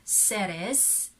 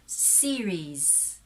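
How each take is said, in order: First: The first vowel is short, not prolonged. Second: The first vowel is long and prolonged. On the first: The speaker calls it wrong. "we actually read that as Ceres" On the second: The speaker calls it right. "the prolonged of the long vowel sounds"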